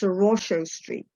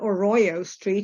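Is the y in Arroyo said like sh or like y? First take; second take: sh; y. First: The y in Arroyo sounds like sh. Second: The y in Arroyo sounds like English y.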